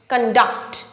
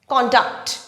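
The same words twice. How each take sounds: First: The stress is on the second syllable. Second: The stress is on the first syllable. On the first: It is used as a verb. "When it is used as a verb, the stress falls on the syllable duct" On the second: It is used as a noun. "when it is used as a noun, the stress falls on the first syllable con"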